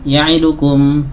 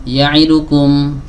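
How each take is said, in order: Both takes have the same delivery.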